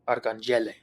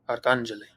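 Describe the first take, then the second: First: The stress is on the third syllable. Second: The stress is on the second syllable. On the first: "if the acute accent mark were over the first E" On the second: "the acute accent mark over the second A, which tells us that this is the syllable that we need to stress"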